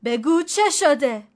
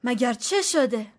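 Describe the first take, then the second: First: Louder, slow stern demand, punching چه; sharp rebuke. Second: Frightened question. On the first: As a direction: snap at her to tell him. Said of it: "فریدون تشر زد". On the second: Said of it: "فریدون هراسان پرسید". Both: A narrator's reading.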